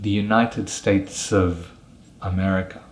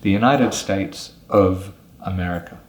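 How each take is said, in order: No difference in how they are said.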